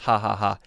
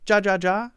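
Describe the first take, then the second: First: Each syllable begins with an H sound. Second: Each syllable begins with a J sound. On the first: The speaker calls it right. "So it's pronounced ha ha ha" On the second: The speaker calls it wrong. "You might be thinking, wait a second"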